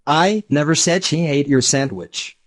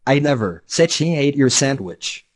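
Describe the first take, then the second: First: "I" stressed at the start. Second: "said" punched, falling after; stress on said. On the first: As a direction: hit the first word "I" hard. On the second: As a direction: lean on "said" as the key word. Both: Shown as a demonstration. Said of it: "depending on which word the speaker accents".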